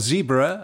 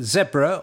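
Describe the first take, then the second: First: The word is said in an American way. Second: The word is said in a non-American way.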